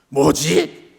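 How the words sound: It sounds angry and irritated. The speaker is annoyed by something. "화가 난 뭐지도 있습니다"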